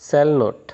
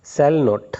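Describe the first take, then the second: Both takes have the same delivery.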